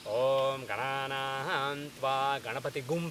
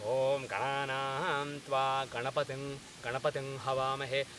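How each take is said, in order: First: Gananaham Tva Ganapati "Gum" with a hard g and added u; wrong "gum" ending. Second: "Ganapating" ending in a nasal ng, then "Havamahe" with h; correct nasal ending. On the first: Teacher demos the wrong Ganapati mantra ending "Gum". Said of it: "people say, but the correct pronunciation is". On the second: Teacher demos the correct Ganapati mantra, nasal ending. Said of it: "the correct pronunciation is". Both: Shown as a demonstration.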